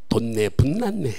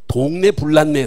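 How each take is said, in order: First: The words are pronounced indistinctly with altered consonants. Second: The words are pronounced clearly and distinctly.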